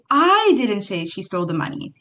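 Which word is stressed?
I. The stress falls on the word I. Somebody else said it. "if you inflict the word I"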